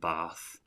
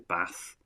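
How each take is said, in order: First: It is said with a southern English vowel. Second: It is said with a northern English vowel. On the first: "rather than bath, ... like a southerner" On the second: "I have a kind of a northern twang to certain things. Certainly my vowel sounds. So I say bath"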